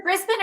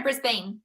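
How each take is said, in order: First: Said in the usual way. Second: "Brisbane" with a full "bane" at the end; spelling pronunciation. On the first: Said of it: "Is it Brisbane or Brisbane". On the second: Shown as a demonstration. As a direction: say "Brisbane" to rhyme with "rain". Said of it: "heard someone say Brisbane the other day".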